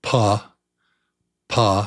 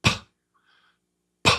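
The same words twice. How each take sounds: First: "P." said louder with voice, the wrong way; wrong p sound. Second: Just breathe out "P." over the lips; right p sound. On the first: Teacher showing children the mistake, wrong voiced p. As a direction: give the voiced wrong "P." to contrast. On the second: Teacher showing children the right way, airy p. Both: Shown as a demonstration.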